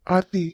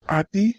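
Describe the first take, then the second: First: A second call, higher and louder. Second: A first call, rising at the end. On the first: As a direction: call her again more insistently. Calling her again, louder. (உரக்க மீண்டும் அழைத்தல்) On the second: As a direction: call her name to get her attention. Calling her name from afar. (கூப்பிடும் அழைப்பு) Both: Acted.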